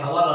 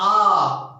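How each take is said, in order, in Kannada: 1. ಈ ಪದ h ಶಬ್ದದಿಂದ ಶುರುವಾಗುತ್ತೆ. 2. ಈ ಪದ ಸ್ವರದಿಂದ ಶುರುವಾಗುತ್ತೆ. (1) "ಇದಕ್ಕೆ ಹವರ್ ಅನ್ನಬಾರ್ದು" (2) "ಹೆಚ್ಚು ಸೈಲೆಂಟು"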